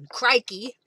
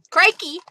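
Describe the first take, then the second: First: Lightly put-on Australian accent, louder; a hint of Australian wildlife-host accent; Steve Irwin. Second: High, loud Australian exclamation; Steve Irwin. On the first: Crafter recalling a TV favorite, mild Australian impression. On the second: Acted. Crafter recalling a TV favorite, loud Australian impression. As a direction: yelp it in a put-on Australian accent. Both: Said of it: "my days of listening to Steve Irwin".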